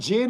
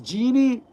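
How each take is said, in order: First: It is said as one short syllable. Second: It is said as two syllables, ending in 'ee'. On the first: The speaker calls it wrong. "So not Jin" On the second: The speaker calls it right. "it's genie"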